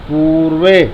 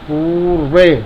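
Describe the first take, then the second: Both takes have the same delivery.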